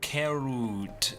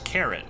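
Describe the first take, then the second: First: It is said in a halting non-native accent. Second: It is said in a plain native accent.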